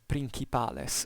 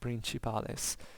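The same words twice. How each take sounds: First: The c is said as a hard sound. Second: The c is said as a soft sound. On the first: This is how the Romans are thought to have spoken. "I usually say always first the pronunciatio restituta" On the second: This is the church pronunciation of Latin. "Then I associate even second also the ecclesiastical pronunciation"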